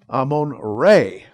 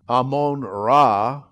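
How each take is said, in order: First: The last syllable sounds like 'ray'. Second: The last syllable sounds like 'rah'. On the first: The speaker calls it right. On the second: The speaker calls it wrong.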